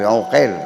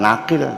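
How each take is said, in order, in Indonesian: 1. Nama itu diawali vokal 'u'. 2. Nama itu diawali vokal 'a'. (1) "Ibnu Uqail yang benar tuh" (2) "Bukan Aqil"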